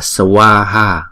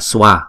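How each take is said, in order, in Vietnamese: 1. Từ này được nói chậm, đủ từng âm tiết. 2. Từ này được nói nhanh và bị rút ngắn. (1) "Chúng ta đọc chậm là swaha" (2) "chúng ta đọc nhanh là swa"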